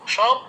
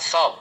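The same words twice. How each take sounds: First: It begins with a palatal sh sound. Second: It begins with a dental s sound. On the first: It means a corpse. "তালব্য স হলে যেমন সব" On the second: It means everything. "দন্ত স ব সবগুলো সবকিছুই"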